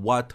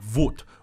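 First: The word begins with a full W sound. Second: The word begins with a V sound. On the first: The speaker calls it wrong. "You never want to fully pronounce it like" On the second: The speaker calls it right. "You want to pronounce it like"

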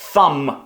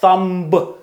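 First: The word ends on the m sound. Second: A b sound is heard at the end. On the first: The speaker calls it right. "ми ніколи не будемо читати B" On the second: The speaker calls it wrong. "Thumb не буде thumb"

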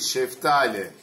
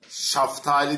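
First: The first vowel is a front 'e'. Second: The first vowel is an open 'a'. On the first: The speaker calls it right. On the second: The speaker calls it wrong. "Şaftali değil"

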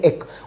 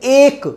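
First: The vowel is short and unemphasized. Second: The vowel is stretched out and emphasized. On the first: The speaker calls it right. "बिना emphasize करेंगे बोलेंगे तो बोलेंगे एक" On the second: The speaker calls it wrong. "ये emphasize है, खींचना किस चीज को"

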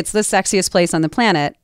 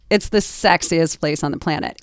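First: The line is said in a flat, neutral voice. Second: The line is said in a low, suggestive voice. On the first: The speaker is just reading the line. "You can say, hey" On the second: The speaker is picturing someone attractive. "Or now you can picture Brad Pitt when you say sexiest"

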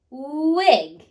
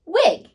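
First: The word is stretched out slowly. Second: The word is said quickly in a snap. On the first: "Blend with me" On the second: "Now say it in a snap"

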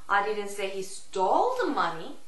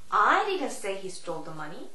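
First: The stress falls on the word stole. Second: The stress falls on the word I. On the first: "Stole의 강세를 주느냐" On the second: "I의 강세를 주느냐"

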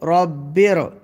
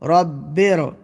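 First: The final consonant runs straight into the next syllable. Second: The final consonant runs straight into the next syllable.

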